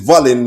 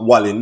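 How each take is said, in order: First: The name begins with a V sound. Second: The name begins with a W sound. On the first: The speaker calls it right. "it's Valin" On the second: The speaker calls it wrong. "not Wallin"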